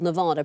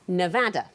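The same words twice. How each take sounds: First: Nevada is said the common outsider way. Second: Nevada is said the way locals say it. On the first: This is how most of the world says it. "called Nevada pretty much everywhere in the world" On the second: This is how people in the state say it. "apart from Nevada, where it's called"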